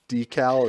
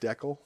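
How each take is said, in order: First: It is said the American way. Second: It is said the Canadian way. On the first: This is the new way he has started saying it. The speaker calls it right. "And and decal" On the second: This is the way he used to say it. The speaker calls it wrong. "and not decal"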